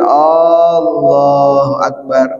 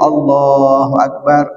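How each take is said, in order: First: The opening vowel of Allahu is drawn out. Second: The opening vowel of Allahu is short. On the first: It asks whether God is the greatest. The speaker calls it wrong. "Kalau hamzahnya dipanjangin" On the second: It states that God is the greatest. The speaker calls it right. "Kalau kita hamzahnya dipendekin"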